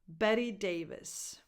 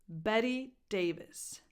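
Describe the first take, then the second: Both takes have the same delivery.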